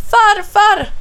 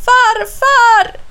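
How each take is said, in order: First: High, loud cry for grandfather; calling out. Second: Very high, drawn-out loud cry; desperate shout for grandfather; calling out. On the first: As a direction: call out urgently for help. (ropar på farfar) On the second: (förtvivlat, utdraget rop) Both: A narrator's reading. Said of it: "ropar han".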